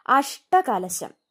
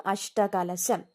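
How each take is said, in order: First: അഷ്ടകലശം said very slowly, falling; drawn-out word. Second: Said in the usual way. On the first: Shown as a demonstration. Teacher announcing the word for students to note, very slowly. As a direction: stretch out അഷ്ടകലശം syllable by syllable. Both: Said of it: "ആ ടാ ഏതാന്ന് നോക്കണം".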